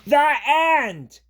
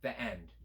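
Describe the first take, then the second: First: It is said excitedly, like an exclamation. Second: It falls at the end like a statement.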